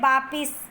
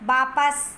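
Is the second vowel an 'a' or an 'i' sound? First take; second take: i; a. First: The second syllable has an 'i' vowel: vaa-pis. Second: The second syllable has an 'a' vowel: vaa-pas. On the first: The speaker calls it wrong. "चौथा शब्द है वापिस" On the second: The speaker calls it right. "शुद्ध रूप होगा वापस"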